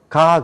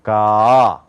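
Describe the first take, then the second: First: "가" in a single mouth opening; plain one-step Korean "가"; Korean-style 가. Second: Low, long "가", opening small then wide; American throat-voiced "가", drawn out; American two-step 가. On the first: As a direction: say "가" short and forward. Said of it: "한 번 열어서". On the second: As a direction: swell "가" open in two stages. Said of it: "두 번을 열어요". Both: Shown as a demonstration.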